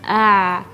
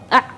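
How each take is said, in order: First: The throat sound is moderately tense. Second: The throat sound is strongly tense. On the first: The speaker calls it right. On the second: The speaker calls it wrong. "terlalu kencang"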